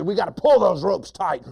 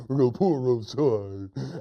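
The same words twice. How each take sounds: First: High, loud bossy order; mean hunter. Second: Goofy dim echo; silly hunter. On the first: Hunter ordering the ropes pulled, loud mean voice. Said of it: "The first hunter says". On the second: Silly hunter copying the rope order, goofy voice. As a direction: parrot it like a dopey sidekick. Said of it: "He repeats everything his friend says". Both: Acted.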